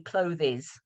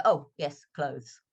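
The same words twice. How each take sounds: First: CLOTHES said in two syllables, "CLO-thiz"; learner's mistake, "clothes" ending in "-thiz"; mispronounced clothes. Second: "clothes" in one syllable, like "cloze"; student owning up, "clothes" without the extra vowel; corrected clothes. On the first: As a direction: add an extra vowel, clothes as "CLOH-thiz". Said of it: "how many people say clothes". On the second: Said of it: "and they go". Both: Retold or imitated.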